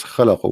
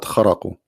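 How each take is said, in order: First: "khalaqu" with an L in the middle; correct Arabic word. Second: "kharaqu" with an R in the middle; mistaken Arabic word. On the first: Teacher giving the word he believes correct, khalaqu with L. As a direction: say "khalaqu" with L, not R. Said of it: "the correct word was khalaqu". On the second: Teacher rejecting the written word, kharaqu with R. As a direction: say "kharaqu" with R in place of L. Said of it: "not kharaqu". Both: Shown as a demonstration.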